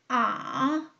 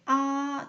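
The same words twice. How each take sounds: First: The pitch dips low, then rises again. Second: The pitch stays high and level. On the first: "비교적 낮은 음에서 밑바닥을 치고 중간음까지 올라가는 거예요" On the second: "오에서 오 평평하게"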